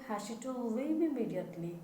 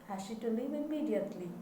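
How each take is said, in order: The two takes are said the same way.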